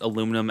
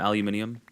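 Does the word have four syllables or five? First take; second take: four; five. First: It is said with four syllables, American style. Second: It is said with five syllables, British style.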